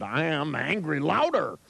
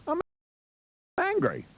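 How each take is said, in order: First: Slow, higher, deliberate declaration at ordinary volume; obey the order with literal, drawn-out emphasis; mock angry, emphatic. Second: High-pitched, half-hearted show of anger; mock angry. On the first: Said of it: "Say you're angry louder". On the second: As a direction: act out a token "I'm angry". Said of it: "tell yourself you're angry".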